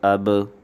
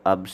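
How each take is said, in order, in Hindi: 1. अंतिम b झटकेदार उछाल के साथ खत्म होता है। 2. अंतिम b बिना उछाल के सपाट रुक जाता है।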